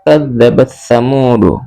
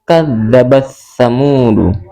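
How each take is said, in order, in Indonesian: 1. Huruf t dihilangkan dan digabung ke dalam th. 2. Huruf t dihilangkan dan digabung ke dalam th.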